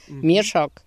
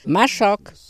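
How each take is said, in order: First: The first vowel sounds like 'ie'. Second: The first vowel sounds like 'a'. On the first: This is how the word sounds in one village's dialect. "W Tarnopolu" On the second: This is how the word sounds in another village's dialect. "a w Siemianówce"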